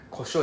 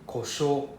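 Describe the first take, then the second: First: The final o vowel is short. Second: The final o vowel is long. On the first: It means pepper. "Without a U is pepper" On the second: It means breakdown. "with a U is breakdown"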